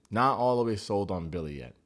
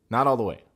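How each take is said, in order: First: Said in the usual way. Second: "all" pushed out louder; stress on all. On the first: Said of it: "Just not all the way". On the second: Shown as a demonstration. Reviewer insists on his doubts about Billy, stress on "all". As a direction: lean hard on "all" in "not all the way".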